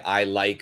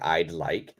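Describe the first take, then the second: First: No d sound follows I. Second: A clear d sound follows I. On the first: The speaker is fond of something. The speaker calls it wrong. "many people don't say the D" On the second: The speaker wants something. The speaker calls it right. "You should be saying I'd like"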